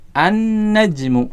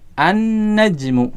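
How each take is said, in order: First: The l blends into a doubled n sound. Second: The l blends into a doubled n sound.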